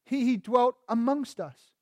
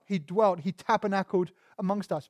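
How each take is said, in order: First: "amongst" set apart and given the weight; emphasis moved to AMONGST; stress on AMONGST. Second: DWELT weighted, "amongst us" let fall away; emphasis lands on DWELT; stress on DWELT. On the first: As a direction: hold back, then land on "amongst". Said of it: "the emphasis is on the word among". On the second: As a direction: lean on the verb "dwelt". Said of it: "we emphasize the word dwelt". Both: Shown as a demonstration.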